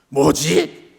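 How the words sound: It sounds angry and irritated. The speaker is annoyed by something. "화가 난 뭐지도 있습니다"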